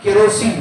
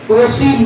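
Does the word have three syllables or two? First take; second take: three; two. First: The first vowel is kept, giving three syllables. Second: The first vowel is dropped, giving two syllables. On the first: "कहा केरोसिन" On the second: "ऐसे ही बोला मैं"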